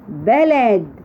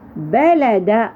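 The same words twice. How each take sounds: First: The word ends on a bare, stopped d sound. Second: The word ends with a short vowel after d.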